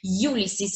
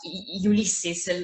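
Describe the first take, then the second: First: The opening 'you' sound is emphasized. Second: The opening sound is said in the standard way. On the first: "I'm pronouncing Ulysses" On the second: "like the right pronunciation"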